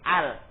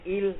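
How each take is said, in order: First: The article begins with an a vowel. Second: The article begins with an i vowel. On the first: The speaker calls it right. "tapi al. Hamzanya dibaca fathah" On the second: The speaker calls it wrong. "enggak boleh il"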